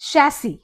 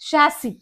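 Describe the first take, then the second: No difference in how they are said.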